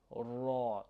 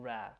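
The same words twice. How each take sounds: First: Ra pronounced like "raw"; ra, dark and open; correct heavy ra. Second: Ra with a front a as in cat; a thin, flat vowel in "ra"; ra, light and forward; wrong light ra. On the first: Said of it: "Again, we're saying ra". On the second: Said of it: "We're not saying ra". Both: Shown as a demonstration.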